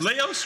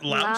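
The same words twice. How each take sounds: First: The word rhymes with house. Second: The word rhymes with Lowe's. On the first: "Laos rhymes with house" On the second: "instead of Laos?"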